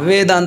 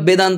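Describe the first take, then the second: First: The word starts with a v sound. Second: The word starts with a b sound. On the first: The speaker calls it right. "দন্ত ওষ্ঠ মানে উপরে দাঁত আর নিচে ওষ্ঠ" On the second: The speaker calls it wrong. "অনেকেরা বেদান্ত বলে, ... যার দাঁত নেই"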